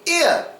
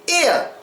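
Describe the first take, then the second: First: The final R is dropped. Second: The same.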